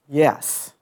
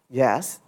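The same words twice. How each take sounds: First: The voice falls at the end. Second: The voice rises at the end. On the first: The speaker is settled and fully certain. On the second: The speaker is not fully certain.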